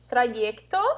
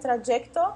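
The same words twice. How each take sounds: First: The y sounds like the vowel ee. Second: The y sounds like a j consonant. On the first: "Pode ter o som do I" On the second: "ou ela pode ter o som do J"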